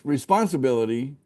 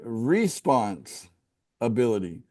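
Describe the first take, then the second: First: It is said as one joined word. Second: It is split into two separate words. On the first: Being dutiful and accountable. The speaker calls it wrong. "instead of saying responsibility" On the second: Having the ability to choose one's response. The speaker calls it right. "But say say it separate"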